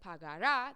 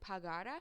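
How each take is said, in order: First: The stress is on the last syllable. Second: The stress is on the middle syllable. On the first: The speaker calls it wrong. "if you pronounce it pagara, that's the future tense" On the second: The speaker calls it right. "with the spoken accent before the ra"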